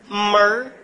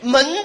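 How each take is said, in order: First: The word ends with an r-colored sound. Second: The word ends without an r-colored sound. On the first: "后边挂上一个儿" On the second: "门字"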